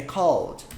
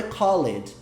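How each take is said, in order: First: "called" said as one syllable, kɔld, no e; "called" like call plus a d, kɔld; correct one-syllable called. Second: Called said as "call-ed", with the e sounded; "called" pronounced kɔ-led, two syllables; wrong two-syllable called. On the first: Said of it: "Como se fosse a pronúncia do call original". ("called" numa sílaba só, kɔld, sem o e) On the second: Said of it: "eu tinha pronunciado called, mas não é called". ("called" pronunciado errado, com o e: kɔ-led) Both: Shown as a demonstration.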